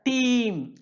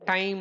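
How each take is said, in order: First: The vowel sounds like 'ee'. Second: The vowel sounds like 'eye'. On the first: This is how the word was said in Chaucer's time. "சாசருடைய பீரியடில் டீம் அப்படின்னு பண்ணியிருக்காங்க" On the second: This is how the word is said today. "இப்போ ... டைம் அப்படின்னு நம்ம pronounce பண்ணியிருக்கோம்"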